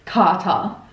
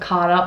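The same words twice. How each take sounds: First: It is said in an Australian accent. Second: It is said in an American accent. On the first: "Australians sound a bit weird saying it, like" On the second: "instead of"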